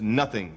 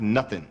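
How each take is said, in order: First: The ending is said fully with the g sound. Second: The ending is clipped without the g sound. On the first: The speaker calls it right. "The word is nothing, There's an I N G on the end of it" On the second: The speaker calls it wrong. "not nothing"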